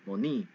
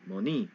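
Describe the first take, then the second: First: The stress is on the second syllable. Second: The stress is on the second syllable.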